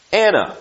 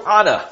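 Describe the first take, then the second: First: Said in the usual way. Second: Anna said Ahna, broad open a as in father; Anna with both a's open, Ahna-style Hebrew; Hebrew pronunciation. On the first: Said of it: "That's not the way we would say it". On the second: Shown as a demonstration. Preacher shows how Israelites say Anna, Hebrew style. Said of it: "but that's the way they would say it".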